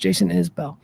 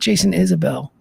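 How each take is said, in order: First: The surname sounds like Isbell. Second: The surname sounds like Isabel. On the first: The speaker calls it right. "It's [name]" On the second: The speaker calls it wrong. "It's not [name]"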